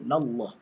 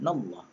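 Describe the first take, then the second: First: The 'na' vowel is kept short. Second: The 'na' vowel is kept short.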